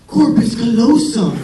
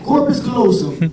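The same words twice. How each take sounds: First: "corpus callosum" said slowly and louder, like sweet talk; mock seductive. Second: Eager blurt. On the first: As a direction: purr "corpus callosum" as if it were dirty talk. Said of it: "So I'm like". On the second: Retold or imitated. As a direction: snap out "corpus callosum" like an exam answer. Exam answer blurted.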